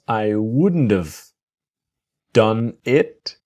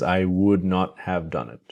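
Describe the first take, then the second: First: Would not is contracted into one word. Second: Would not is said as two full words. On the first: The speaker calls it right. "What we do have is would not is wouldn't" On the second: The speaker calls it wrong. "Nobody says"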